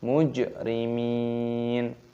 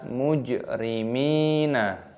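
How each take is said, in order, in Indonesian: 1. Kata ini diakhiri konsonan n. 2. Kata ini diakhiri vokal tambahan. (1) "tapi mujrimin" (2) "jangan dibaca mujrimina"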